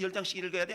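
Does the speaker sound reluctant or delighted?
reluctant. It sounds reluctant and complaining. Reading the Bible feels like a burden. The speaker calls it wrong. "이게 아니라"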